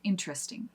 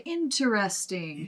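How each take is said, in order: First: The word is said quickly and compressed. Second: The word is said slowly and dramatically. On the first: "when we're speaking quickly" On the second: "to be kind of silly or to slow down, or just to be dramatic"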